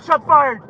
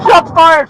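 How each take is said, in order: First: Said in the usual way. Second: Shouted alarm over radio; urgent shout. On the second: Real, not acted. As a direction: yell the alert. Officer under fire on radio.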